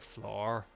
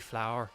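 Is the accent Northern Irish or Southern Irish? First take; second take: Northern Irish; Southern Irish. First: It is said in a Northern Irish accent. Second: It is said in a Southern Irish accent.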